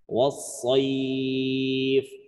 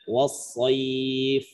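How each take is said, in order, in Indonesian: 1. Huruf mad panjang dibaca enam harakat. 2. Huruf mad panjang dibaca dua harakat. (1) "boleh enam harokat" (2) "Boleh dua"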